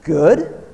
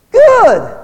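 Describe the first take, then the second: First: Said in the usual way. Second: High, loud mocking good; loud mock approval; sarcastic good. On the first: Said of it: "Hey, I did my homework". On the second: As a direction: snap it back dismissively. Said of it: "What do you want?".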